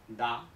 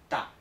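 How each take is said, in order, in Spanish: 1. La primera consonante es una d sonora. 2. La primera consonante es una t sorda. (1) "no se pronuncia da" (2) "Se pronuncia con una t"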